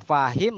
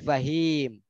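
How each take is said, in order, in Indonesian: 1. Vokal panjangnya ada di suku kata pertama. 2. Vokal panjangnya ada di suku kata kedua.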